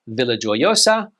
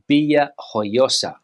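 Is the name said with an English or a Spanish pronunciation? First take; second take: English; Spanish. First: It is said with an English pronunciation. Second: It is said with a Spanish pronunciation.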